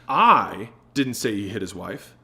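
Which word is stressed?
I. The word "I" is stressed.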